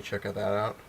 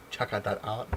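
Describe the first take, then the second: First: Said in the usual way. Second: Playful self-mockery with a lifted ending; mocking own slip. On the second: Vlogger echoing his garbled sign-off, playful self-mockery. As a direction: repeat the fumble in a put-on voice, rising at the end.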